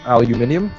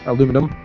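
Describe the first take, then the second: First: Said the British way, with five syllables. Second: Said the American way, with four syllables. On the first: The speaker calls it wrong. "I'd actually dislike the British way of saying it" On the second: The speaker calls it right. "it's aluminum"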